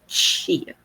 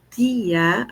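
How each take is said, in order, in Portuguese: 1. A palavra começa com som de ch. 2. A palavra começa com som de t simples. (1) "a gente fala tia" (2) "em vez de falar tia"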